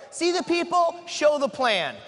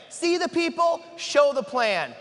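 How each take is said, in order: First: People lifted high and held; slogan with the weight on "people"; stress on people. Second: "see" punched high at the start; slogan with the weight on "see"; stress on see. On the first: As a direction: lean on "people", then drop through "show the plan". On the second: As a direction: hit "see" first, then fall through "show the plan". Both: Shown as a demonstration.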